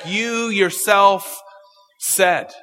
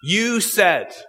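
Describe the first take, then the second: First: "You yourself" drawn out slowly, leaning on "You"; stress on YOU. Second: Said in the usual way. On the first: Shown as a demonstration. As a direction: hit the word "You" hard and slow. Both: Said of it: "the "you" is emphatic".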